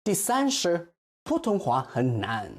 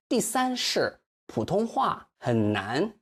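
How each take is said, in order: First: Said in the usual way. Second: 第三是普通话很难 slowed, 很 as half third tone; slow it down, tones clear; slow careful model. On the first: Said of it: "He stressed Mandarin wrong". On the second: Shown as a demonstration. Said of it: "for 很难".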